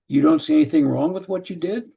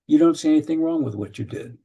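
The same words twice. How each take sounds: First: Rising at the end on did, a bit louder; challenging question. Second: A level statement ending down on did. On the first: Parent questioning a teenager, rising at the end. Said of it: "Questions are somehow just a little more of a challenge". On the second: Parent reflecting to a teenager, a level statement. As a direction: state it, no lift at the end on did. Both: Shown as a demonstration.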